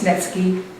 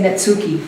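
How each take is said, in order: First: It is said with a non-American pronunciation. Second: It is said with an American pronunciation. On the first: The speaker calls it right. "but it's Nevsky" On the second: The speaker calls it wrong. "Americans say Netsuki"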